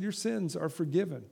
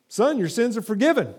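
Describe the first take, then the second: First: Softer, settled words of Jesus; softly repeated. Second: Higher, proclaimed words of Jesus; Jesus speaking. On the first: Jesus to the paralytic man, repeated softly. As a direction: say it again, quietly sure. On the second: Jesus to the paralytic man, raised and declared. Jesus quoted, then quote repeated. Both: Acted.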